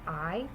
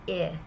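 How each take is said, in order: First: The word has a long vowel sound. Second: The word has a short vowel sound. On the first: It is the ordinary first-person pronoun. The speaker calls it wrong. "instead of I" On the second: It stands for the word in. The speaker calls it right. "pronounced with the short I vowel"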